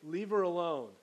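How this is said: It is said in a tense, sharp tone. A strong rebuke. The speaker calls it right. "a little bit of tension in his voice"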